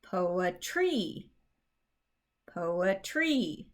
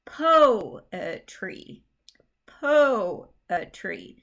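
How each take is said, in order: First: POETRY with the stress shifted onto TREE; POETRY misstressed as po-e-TREE, long final syllable; stress on last syllable. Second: POETRY with PO punched loud and long; PO-e-try, strong first beat; stress on PO. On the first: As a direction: say po-e-TREE for POETRY, leaning on the end. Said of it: "That's just not how we say". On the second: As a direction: hit the first syllable of POETRY hard, the rest weaker. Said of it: "strong emphasis goes on that first syllable". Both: Shown as a demonstration.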